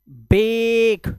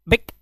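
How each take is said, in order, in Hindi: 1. स्वर लंबा बोला गया है। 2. स्वर छोटा बोला गया है। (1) "लॉन्ग वाउल साउंड" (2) "ऐसा नहीं है"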